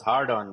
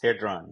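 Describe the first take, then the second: First: The first syllable ends with an r sound. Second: The first syllable has no r sound. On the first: The speaker calls it wrong. "Some people mispronounce it as Hardon" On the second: The speaker calls it right. "but it's not. It's Hadron"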